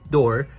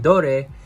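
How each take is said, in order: First: The word sounds just like plain 'door'. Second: The word does not sound like plain 'door'. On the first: The speaker calls it right. "is pronounced door" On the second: The speaker calls it wrong. "which was actually wrong"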